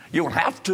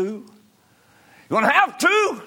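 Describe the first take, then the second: First: Raised pitch, held short of a shout; insistent preaching. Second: Very high, loud cry; shouted preaching. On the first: Preacher presses the congregation about their records, insistent but contained. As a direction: press it, keeping some back. First take before louder repeat. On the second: Preacher hammers the congregation about their records, shouting high and loud. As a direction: repeat it as a full-force holler. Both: Real, not acted.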